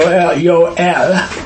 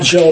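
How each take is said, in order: First: The name begins with a Y sound. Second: The name begins with a J sound. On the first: The speaker calls it right. "Y-O-E-L, Yah is El" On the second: The speaker calls it wrong. "it's not Joel"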